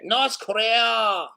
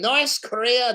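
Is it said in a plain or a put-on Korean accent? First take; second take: Korean accent; plain. First: It is said in a put-on local Korean accent. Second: It is said in the speaker's own accent.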